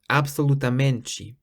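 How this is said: The final 'te' sounds like 'chee'. This is the Brazilian pronunciation. "in Brazilian, it's pronounced absolutamente"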